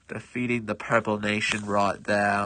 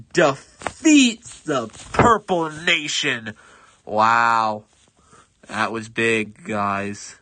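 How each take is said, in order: First: Lower, lightly put-on British accent; a hint of a British accent, savouring the win. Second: Put-on loud, slow British proclamation in a British accent; booming British announcer accent, drawn out. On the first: Gamer repeats the victory in a mild British accent. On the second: British accent for the gamer's big victory announcement. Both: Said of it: "suddenly becoming British".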